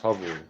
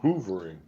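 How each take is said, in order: First: The first vowel sounds like the 'u' in hut. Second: The first vowel sounds like the 'oo' in hoot. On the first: The speaker calls it right. "there's only one O, so it's hovering" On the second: The speaker calls it wrong. "Some people pronounce it hoovering"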